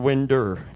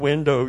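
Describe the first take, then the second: First: The word ends with an 'er' sound. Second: The word ends with an 'oh' sound. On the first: "your winder" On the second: "Not your window"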